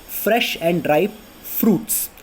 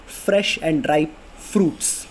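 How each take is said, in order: Both takes have the same delivery.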